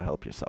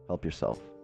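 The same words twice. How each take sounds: First: It is said in a rude, dismissive tone. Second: It is said in an earnest, advising tone. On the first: Go away and leave me alone. The speaker calls it wrong. "I'm not just saying it like an asshole" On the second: Look after your own interests. The speaker calls it right. "I'm saying it like that's what you should be doing"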